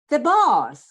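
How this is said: The tone sounds happy and pleased. The arrival is welcome news. "I'm happy that he came"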